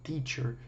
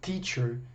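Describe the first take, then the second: No difference in how they are said.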